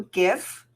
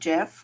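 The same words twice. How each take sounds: First: The word begins with a hard g sound. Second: The word begins with a j sound. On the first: The speaker calls it right. "it's also GIF" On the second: The speaker calls it wrong. "not GIF"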